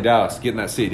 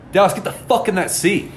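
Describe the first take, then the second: First: Said in the usual way. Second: Higher-pitched, forceful retold command; exasperated order. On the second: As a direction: order a stubborn drunk friend, pitch jumping up. Repeats order after being refused.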